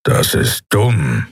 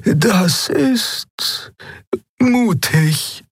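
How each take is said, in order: First: Slow, blunt growl. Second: Very high-pitched, with a hesitant gap; high voice, pausing before the verdict; Xea's character voice. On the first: Keru dismissing the admiral's plan, slow growl. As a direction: growl it out slowly. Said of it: "knurrte Keru". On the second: Xea reacting to the admiral's plan, high and hesitant. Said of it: "sagte Xea". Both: A narrator's reading.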